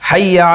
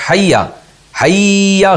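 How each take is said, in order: First: The word is short without extra force. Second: The word is drawn out with heavy force. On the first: The speaker calls it right. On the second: The speaker calls it wrong.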